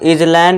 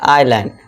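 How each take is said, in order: First: The s sound is pronounced. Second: The s sound is silent. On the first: The speaker calls it wrong. "इसे हम इजलैंड या फिर आइलैंड नहीं पढ़ेंगे" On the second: The speaker calls it right. "ये एस silent हो जाएगा"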